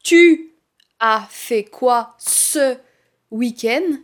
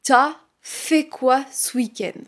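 First: The words 'tu as' are said in full. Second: The words 'tu as' are shortened to 't'as'.

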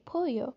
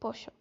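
First: The double L sounds like a y. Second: The double L sounds like ch. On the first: This is how most Spanish speakers say it. "if they think in Spanish, they would say pollo" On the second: This is how it is said in Argentina. "but I say pollo"

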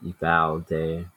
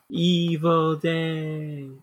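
First: It is said calmly, without yelling. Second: It is yelled loudly, like Zuko.

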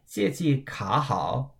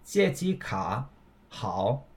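First: Said quickly with no pause; 卡 rises. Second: A pause before 好; both keep third tone. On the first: "if I was speaking quickly, I totally could have said 借记卡好" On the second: "I pronounced it 借记卡好, right? So I took a pause"

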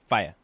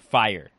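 First: The final r sound is dropped. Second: The final r sound is clearly pronounced. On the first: This is the English way of saying it. "Whereas English say" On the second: This is the American way of saying it. "we actually pronounce our R's"

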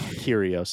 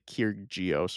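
First: The name is said without a G sound. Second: The name is said with a G sound. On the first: The speaker calls it right. "So you would just say like Kyrgios is fine. Do not say the G" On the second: The speaker calls it wrong. "Do not say Kyrgios or whatever"

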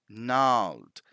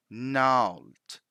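The two takes are said the same way.

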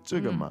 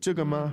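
First: It is said as a hesitant, musing filler. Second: It is said as a genuine question. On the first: The speaker is uncertain and hesitating. "It's neutral" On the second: The speaker is asking about this thing. "If it was the question form, how would it sound?"

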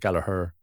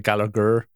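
First: The name is said the Irish way. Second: The name is said the English way. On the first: "in Ireland they say Gallagher" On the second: "in England they say Gallagher"

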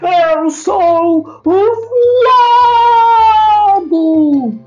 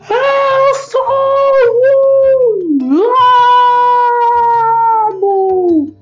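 First: It is shouted at moderate loudness. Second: It is bellowed much louder than before.

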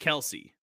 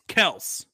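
First: The name ends with an 'ee' vowel sound. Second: The name ends on a consonant, with no vowel. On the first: This is how most people say the name. The speaker calls it wrong. "their name isn't actually pronounced Kelsey" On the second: This is how the family itself says the name. The speaker calls it right. "It's Kels"

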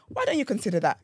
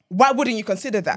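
First: It sounds like a gentle, caring question. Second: It sounds like a firm, assertive statement.

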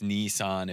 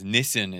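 First: It is pronounced the Japanese way. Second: It is pronounced the Australian English way. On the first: "if you're saying it in Japanese" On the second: "Nissan is how we say it in Australia"

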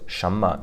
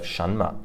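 First: The n in the first syllable is dropped. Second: The n in the first syllable is clearly pronounced. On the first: The speaker calls it right. "you don't really pronounce the n. So it's shenme" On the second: The speaker calls it wrong. "instead of shenme"

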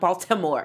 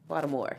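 First: The t is pronounced hard and clearly. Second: The t is pronounced soft and lightly. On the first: The speaker calls it wrong. "It's not Baltimore" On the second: The speaker calls it right. "It's a soft T"

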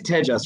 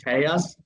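First: The J is said as an English J sound. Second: The J is said like a Y sound. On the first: The speaker calls it right. "it is Tejas, right?" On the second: The speaker calls it wrong. "I assume it's like a Y, so I keep saying Tejas"

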